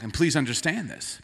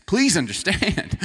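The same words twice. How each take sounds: First: Said in the usual way. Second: "Please" pushed up and louder, slow and drawn out; emphatic plea. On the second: Shown as a demonstration. Pastor pleading with the congregation about honks, slow emphatic stress. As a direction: lean hard on "Please understand".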